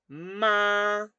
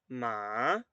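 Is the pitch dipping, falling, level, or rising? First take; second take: level; dipping. First: The pitch stays high and level throughout. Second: The pitch dips low, then rises again. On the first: "tono uno es un tono alto y se per- que perdura" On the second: "baja y sube"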